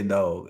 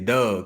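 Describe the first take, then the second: First: The vowel is said the standard way. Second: The vowel is said the Baltimore way. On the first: "They don't say dog" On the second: "They say Doug"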